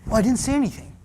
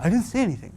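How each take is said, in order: First: Higher, sarcastic innocent denial; sulky denial. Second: Higher mocking innocence; sarcastic denial. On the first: Pretend. Teen denying to mom, mock innocent. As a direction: deny it with fake innocence. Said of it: "your mother said". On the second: Preacher repeating the teen's denial, mock innocent. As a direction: play fake innocent. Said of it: "I love that".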